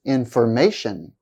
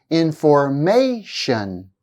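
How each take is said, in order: First: Said in the usual way. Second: "Information" slowly, stretching the "ma" syllable; slow, stressed third syllable. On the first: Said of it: "slowly the first time". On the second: Shown as a demonstration. Teacher showing stress before shun ending, slow demo. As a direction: draw out "Information", leaning on its second-last syllable. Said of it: "I'll say the word slowly the first time".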